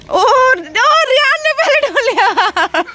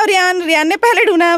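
First: High, slow delighted cry with a laugh; delighted cheer for the winner; excited cheer. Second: Said in the usual way. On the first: Real, not acted. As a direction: stretch it out with a laugh, thrilled. Cheering kids in a toy race.

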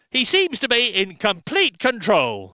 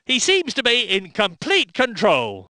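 Both takes have the same delivery.

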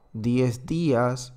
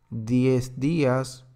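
Both takes have the same delivery.

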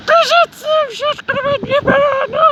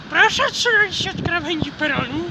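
First: Much higher, louder station loudspeaker call; megaphone announcement. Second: Imitating a platform megaphone; megaphone announcement. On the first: Retold or imitated. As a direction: blare it like a platform megaphone announcer. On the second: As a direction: speak it like a station loudspeaker. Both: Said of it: "bo jeszcze przez megafon".

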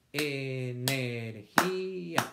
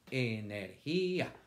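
First: Energía slowly split, four beats; slow syllables. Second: Said in the usual way. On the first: Shown as a demonstration. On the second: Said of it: "Cuatro golpes de voz".

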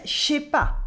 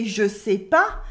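First: "je sais pas" squeezed into two syllables, shay-pa; eaten vowels. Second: "je sais pas" with every vowel sounded, je kept separate; full vowels. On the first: French teacher copying the waitress's eaten vowels, contracted "je sais pas" as shay-pa. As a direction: run "je sais" together into a sh sound, "shais pas". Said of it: "she's eating some vowels". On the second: French teacher showing what the waitress doesn't say, full "je sais pas". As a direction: say "je sais pas" fully as je-seh-pa. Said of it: "She doesn't say". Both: Shown as a demonstration.

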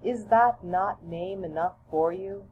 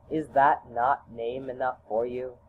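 First: Higher, lightly voiced mother; gently teasing mother, pitched up; mother's voice. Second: Lower, lightly voiced father; calm fatherly chiding, pitched down; father's voice. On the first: Mother gently chides her child, a lightly higher voice. Mother's answer, same as father's. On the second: Father gently chides his son, a lightly lower voice. Father's answer, same as mother's.

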